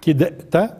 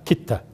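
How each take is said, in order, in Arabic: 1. الدال تُنطق مع قلقلة قبل التاء. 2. الدال تدغم بسلاسة في التاء التي بعدها. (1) "مش دائما حروف القلقلة تقلقل، كدت، لا" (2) "هي هيك تلفظ، يعني تدغم التاء بالدال الساكنة"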